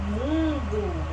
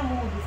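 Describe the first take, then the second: First: "mundo" with a long nasal U. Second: "mudo" with a pure oral U; oral vowel MUDO. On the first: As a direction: stretch the nasal "mun" in "mundo". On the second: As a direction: say "mudo" without nasalising the U. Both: Shown as a demonstration.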